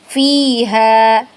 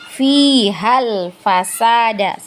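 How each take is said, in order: First: The vowel after 'h' is long. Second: The vowel after 'h' is short. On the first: The reading stops on this word. "kalau kita berhenti di kata fiha maka hanya itu tetap dibaca panjang" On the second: The reading continues into the next word. "ketika lanjut maka ha itu kita tidak baca panjang, ya, jadi pendek"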